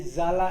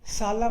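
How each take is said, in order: First: जाला with a buzzing z; correct z reading. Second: साला with a plain s sound; wrong s reading. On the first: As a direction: start जाला with a voiced z. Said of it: "एस के बाद में vowel है". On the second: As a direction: say साला with a hissed s. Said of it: "साला मत पढ़ देना". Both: Shown as a demonstration.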